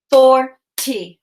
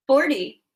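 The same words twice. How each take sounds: First: "Forty" in two separate beats, pause between; chopped syllables. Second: Said in the usual way. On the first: Shown as a demonstration. Teacher chops "Forty" for pupils to blend, syllable by syllable. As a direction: chop "Forty" after the first syllable. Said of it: "I'm gonna chop the syllables in each word". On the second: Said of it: "you're gonna say what our word is".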